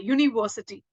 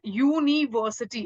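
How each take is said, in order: First: Said in the usual way. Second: यूनिवर्सिटी broken up, "yoo - nee - versity"; drawn-out first sound. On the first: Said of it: "वाई की sound कर रहा है". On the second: Shown as a demonstration. Teacher shows class the Y sound, यूनिवर्सिटी split into "yoo-nee-versity". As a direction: stretch the "yoo" opening of यूनिवर्सिटी. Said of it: "it is pronouncing like you".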